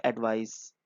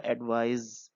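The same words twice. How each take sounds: First: "एडवाइस" ending in a soft hissed s; noun pronunciation. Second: "एडवाइज" ending in a buzzed z; verb pronunciation. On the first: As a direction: say "एडवाइस" with an s sound at the end, as the noun. ("एडवाइस" के अंत में स की ध्वनि) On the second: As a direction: say "एडवाइज" with a z sound at the end, as the verb. ("एडवाइज" के अंत में ज़ की ध्वनि) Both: Shown as a demonstration. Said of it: "pronunciation में भी फ़र्क है".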